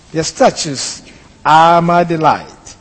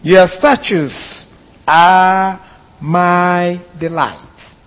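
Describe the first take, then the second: First: Said in the usual way. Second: Solemn, drawn-out reading of the verse; unhurried formal recitation of scripture; slow scripture reading. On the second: Shown as a demonstration. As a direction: read the verse slowly and deliberately, each word given weight. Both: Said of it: "verse twenty-four reads".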